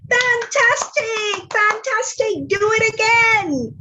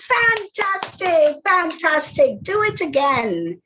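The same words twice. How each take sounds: First: Much higher, slow and stretched on fantastic; a princess flattering the dragon in a soaring voice; gushing praise. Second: Higher and slow, settling down by again; a princess goading the dragon with praise; gushing praise. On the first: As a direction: overdo the wonder to goad him. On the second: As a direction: flatter him a bit less each word. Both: Acted.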